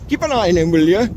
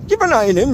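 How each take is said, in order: First: Bad Geordie accent; lightly put-on Geordie accent. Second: Put-on higher Geordie accent; mock Geordie accent, lifted. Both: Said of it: "That's my terrible Geordie accent".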